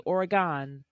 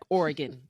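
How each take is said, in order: First: The name is said the outsider way. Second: The name is said the local way. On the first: The speaker calls it wrong. "Can't say Oregon" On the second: The speaker calls it right. "just like Oregon"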